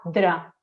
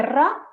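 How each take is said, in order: First: "dra" with a D and one tap instead of a roll; DR replacing trill. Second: "ra" with a strongly rolled R; trilled R. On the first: Speech therapist gives the child's substitute, DR sound. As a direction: say "dra" in place of rolled "ra". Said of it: "en vez de ra, dra". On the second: Speech therapist gives the target sound, trilled R. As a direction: roll the tongue tip fully on "ra". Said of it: "en vez de ra". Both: Shown as a demonstration.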